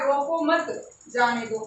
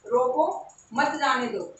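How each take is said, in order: First: "रोको मत", short pause, "जाने दो"; pause after मत. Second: "रोको", clear pause, "मत जाने दो"; pause after रोको. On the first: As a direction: join मत to रोको, then break. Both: Shown as a demonstration. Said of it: "बस कॉमा का अंतर है".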